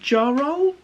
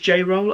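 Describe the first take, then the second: First: The first syllable sounds like 'jar'. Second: The first syllable sounds like 'jay'. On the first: "I've always pronounced it Jar-Roll" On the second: "Maybe it's J-Roll"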